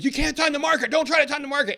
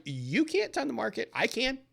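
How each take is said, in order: First: High, louder mock rant; hammed-up radio planner yelling; imitating the radio planner screaming at listeners. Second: Laughing back. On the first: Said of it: "he screams". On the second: Retold or imitated. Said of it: "I laugh and I'm like".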